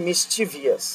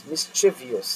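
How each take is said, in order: Both takes have the same delivery.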